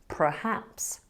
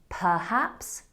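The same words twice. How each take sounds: First: The first syllable is said as 'pre'. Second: The first syllable is said as 'per'. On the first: The speaker calls it wrong. "not perhaps" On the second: The speaker calls it right. "It should be perhaps"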